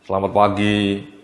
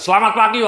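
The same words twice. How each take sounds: First: It is said weakly, with low energy. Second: It is said loudly, with high energy. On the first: The audience will quickly get sleepy. The speaker calls it wrong. "kalau Anda mendeliver presentasi dengan loyo" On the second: The enthusiasm spreads to the audience. The speaker calls it right. "kalau Anda bersemangat itu ya"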